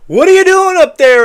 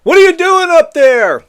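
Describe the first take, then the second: First: Shouted question, pitched higher and louder; mock reporter shout at the president; reporters yelling. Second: A higher, louder shouted question; imitating reporters shouting up at the roof; reporters yelling. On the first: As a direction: yell it up at the roof. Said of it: "and reporters said". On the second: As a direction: call up to him in mock alarm. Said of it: "Reporters are screaming at him".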